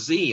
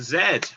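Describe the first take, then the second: First: The letter is said the American way, 'zee'. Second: The letter is said the British way, 'zed'.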